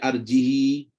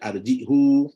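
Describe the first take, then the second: First: The word ends with a short i vowel. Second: The word ends with a short u vowel. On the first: "Bahkan qiraat baca arjihi" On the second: "ada baca arjihu"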